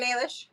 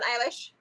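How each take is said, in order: First: Eilish said as AY-lish; AY-lish pronunciation. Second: Eilish said as EYE-lish; EYE-lish pronunciation. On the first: Offering the other baby name Eilish, AY-lish. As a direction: end on Eilish with a long "ay". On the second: Playfully asking for another baby named Eilish, EYE-lish. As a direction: end on Eilish with an "eye" first vowel. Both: Shown as a demonstration. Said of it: "it can be pronounced Eilish or Eilish".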